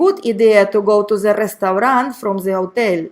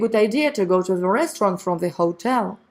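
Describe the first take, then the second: First: The pronunciation is heavily accented and unclear. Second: The pronunciation is clear and easy to follow. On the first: The speaker calls it wrong. "I doubt if you would really understand the first one" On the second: The speaker calls it right. "you would be able to understand the second option perfectly"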